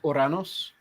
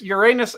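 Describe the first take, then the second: First: It does not sound like 'your anus'. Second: It sounds like the phrase 'your anus'. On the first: The speaker calls it right. "the older pronunciation was Uranus" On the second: The speaker calls it wrong. "it does sound like you're saying your anus"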